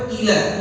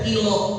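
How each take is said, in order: First: The final vowel sounds like 'a'. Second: The final vowel sounds like 'o'. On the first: The speaker calls it right. "kita harus baca pada ila" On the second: The speaker calls it wrong. "Jangan kita baca ilo"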